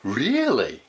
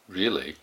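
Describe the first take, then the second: First: It is said in a surprised way. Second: It is said in a skeptical, doubting way. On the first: The listener did not expect the news. "if you're really surprised" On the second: The listener doubts the news is true. "if you're skeptical, you could go like"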